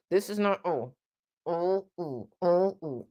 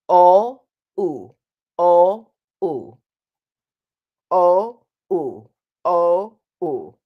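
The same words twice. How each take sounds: First: "O, oo" sung softer with jaw clamped; unclear closed vowels demo. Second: Sung, loud "O, oo" with space between the molars; open sung vowels. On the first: Coach showing students an unclear "O, oo". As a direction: sing "O, oo" with teeth too close. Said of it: "That's not very clear". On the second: Sung, coach showing students the clear "O, oo". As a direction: sing "O, oo" round and open. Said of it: "space in between your teeth". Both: Shown as a demonstration.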